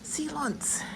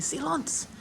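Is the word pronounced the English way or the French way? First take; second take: French; French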